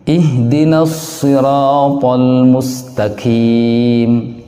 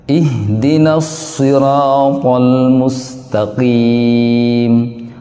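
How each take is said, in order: The two takes are said the same way.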